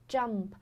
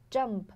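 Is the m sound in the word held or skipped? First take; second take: held; held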